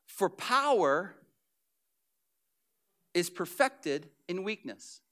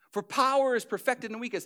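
First: Slow solemn reading. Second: Said in the usual way. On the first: Acted. Scripture read slow.

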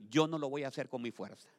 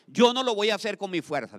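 First: Said in the usual way. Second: Louder declaration. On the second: Shown as a demonstration. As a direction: call it out louder the second time. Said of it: "dígale".

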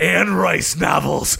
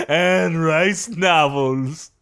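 First: Slow, shouted commercial pitch; mock ad read. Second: Very slow closing slogan with a lift at the end; slow ad tagline. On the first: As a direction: sell the product hard, slowly. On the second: Acted. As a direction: let the tagline hang. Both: Mock ad for Anne Rice.

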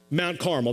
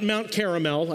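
First: "Carmel" said as two syllables, CAR-mel; Mount Carmel. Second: "Caramel" said three syllables like the candy, CAR-a-mel; Mount Caramel mispronounced. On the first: Preacher correcting the congregation, "Mount Carmel" said CAR-mel. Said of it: "that's right, not Mount Caramel". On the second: Preacher joking about the candy mix-up, "Caramel" like the candy. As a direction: give the wrong version, "Mount Caramel" like the sweet. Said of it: "not Mount Caramel". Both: Shown as a demonstration.

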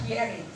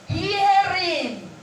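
First: Said in the usual way. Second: "Hearing" drawn out, pitched up high; emphasis on Hearing. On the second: Shown as a demonstration. Preacher pointing out the second word to listeners, "Hearing" stressed high and long. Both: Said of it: "There is an emphasis that was made".

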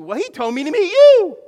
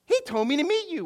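First: High, very loud acted amazement; shouted excited discovery. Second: High, loud excited retelling; excited discovery. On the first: Friend answers he was told to meet you, shouting excitedly. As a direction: top the first voice with a big excited yell. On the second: Retold or imitated. Stranger realizes they share a friend, excited. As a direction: act out delighted recognition, pitched up.

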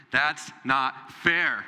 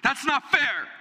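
First: Put-on drawn-out, slow whine of a child; whiny child. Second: Higher, louder whine with "not" punched; childish wail. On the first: Preacher mimics a child complaining it's not fair. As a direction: stretch out "fair" like a sulking kid. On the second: Retold or imitated. Preacher mimics a child crying out at unfairness. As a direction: cry "not" like a kid's protest. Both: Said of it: "The cry of the American child".

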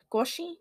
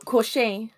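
First: Koshi ending in "shee", high and rising; unsure pronunciation. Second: Koshé ending in "shay", slow and loud; Koshé drawn out with a strong voice; trying the pronunciation. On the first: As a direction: try Koshi as a question. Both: Shown as a demonstration. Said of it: "How do you pronounce this?".

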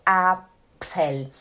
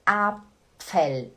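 The two takes are said the same way.

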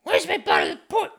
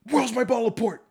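First: Much higher, louder squeaky demand with a rising end; shrill mock waitress. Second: High, sharp put-on waitress voice demanding the port; a snotty coworker barking at the bartender; mock waitress demand. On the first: Rude waitress demanding the port, in a squeaky mocking voice. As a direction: redo her nagging even more shrill and bratty. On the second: High mocking voice of a rude waitress at the bar.

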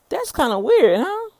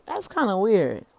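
First: Louder and higher, teasing herself; "weird" said loud and high, huh jumping up; playful amusement. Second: Said in the usual way. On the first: Real, not acted. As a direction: toss it out with an amused lift. Playful self-remark, repeated.

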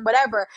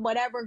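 First: Louder, mocking whatever with a falling end; dismissive whatever. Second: Said in the usual way. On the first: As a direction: throw "whatever" out loud like a shrug. Repeats dismissive word, louder.

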